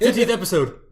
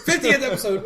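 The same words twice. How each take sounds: First: Excited. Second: Excited cheer. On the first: First call of milestone. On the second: Echoed louder and higher. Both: Real, not acted.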